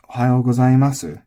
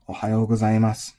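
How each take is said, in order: First: "Ohayo gozaimasu" with a voiced su at the end; Ohayo gozaimasu, full "su" ending; final u pronounced. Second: "Ohayo gozaimasu" ending on a bare s; flat gozaimasu, last vowel dropped; Ohayo gozaimasu finishing in "mas"; silent final u. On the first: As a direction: sound the last vowel of gozaimasu. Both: Shown as a demonstration. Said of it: "the two patterns you're gonna hear".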